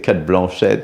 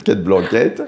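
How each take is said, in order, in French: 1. Le nom est prononcé avec un accent anglais. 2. Le nom est prononcé avec un accent français. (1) "on dit" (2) "à la française"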